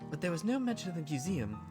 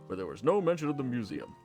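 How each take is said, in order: First: It is in Miss Valentine's character voice. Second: It is in Mister Wilder's character voice.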